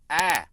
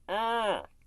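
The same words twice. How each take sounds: First: The scream sounds clear and open. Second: The scream sounds muffled and covered.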